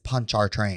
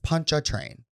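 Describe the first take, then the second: First: The middle syllable has an R sound. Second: The middle syllable has no R sound. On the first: The speaker calls it wrong. "So it looks like it's punch our train" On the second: The speaker calls it right. "So you just don't pronounce the R. Correct"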